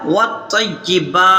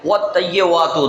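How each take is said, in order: First: The first consonant is w, the later one b. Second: Both key consonants are pronounced as w. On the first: The speaker calls it right. "बल्कि पहले वाव पढ़ेंगे फिर बा पढ़ेंगे" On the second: The speaker calls it wrong. "दोनों तरफ वाव पढ़ देते हैं"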